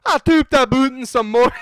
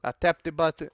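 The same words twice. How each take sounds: First: Loud, high, exaggerated Scottish accent. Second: Said in the usual way. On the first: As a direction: belt it out in hammed-up Scottish. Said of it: "How does a Scottish ac". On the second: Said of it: "I forgot how to do the Scottish accent".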